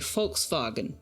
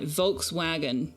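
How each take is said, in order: First: It starts with F and has a V sound. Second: It starts with V and has a W sound. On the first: The speaker calls it right. "it's an F and a V" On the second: The speaker calls it wrong. "not a V and a W"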